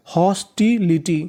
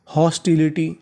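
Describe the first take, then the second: First: हॉस्टिलिटी slowed and split into syllables. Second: Said in the usual way. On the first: Shown as a demonstration. Teacher joins the parts just spelt, syllable-by-syllable. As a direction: say हॉस्टिलिटी piece by piece. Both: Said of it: "तो इतनी meaning बनी".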